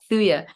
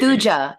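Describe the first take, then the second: First: The middle consonant is a Y sound. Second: The middle consonant is a J sound. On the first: "you're pronouncing the J as if it's Spanish" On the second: "like Thu Jones"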